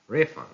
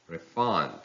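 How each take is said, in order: First: "refund" as RE-fund; stress on first syllable. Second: "refund" as re-FUND; stress on second syllable. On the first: Teacher reading a noun, "refund" stressed on RE. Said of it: "stress on the first syllable". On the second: Teacher reading a verb, "refund" stressed on FUND. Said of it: "stress falls on the second syllable". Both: Shown as a demonstration.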